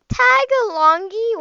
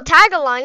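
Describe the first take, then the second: First: "Tagalongi" with an extra gee on the end; mispronounced. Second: "Tagalong" ending on ng, no extra ee; corrected pronunciation. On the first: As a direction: stretch "Tagalongi" slowly, ending in a hard gee. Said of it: "not Tagalongi". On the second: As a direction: say "Tagalong" loudly, stopping at the ng. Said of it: "Oh, Tagalong, not Tagalongi". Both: Real, not acted.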